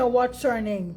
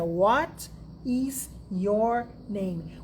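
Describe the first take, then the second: First: Said in the usual way. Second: "What is your name?" very slow, each word apart. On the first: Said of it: "Você fica pensando que é". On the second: Shown as a demonstration. Teacher mocks students translating each word slowly. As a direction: spell it out word by word. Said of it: "Você fica pensando em cada uma delas".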